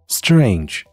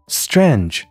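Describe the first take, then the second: First: The vowel glides as a diphthong. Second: The vowel is a plain, non-gliding vowel. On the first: The speaker calls it right. "这个词的正确读音是strange，其中的元音是双元音a" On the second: The speaker calls it wrong. "所以不要读成strange"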